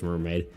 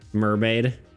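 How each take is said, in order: First: It is said in a shy, elusive character voice. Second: It is said in a confident, unshy character voice.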